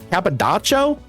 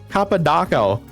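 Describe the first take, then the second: First: The name is said with a 'ch' sound. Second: The name is said with a 'k' sound.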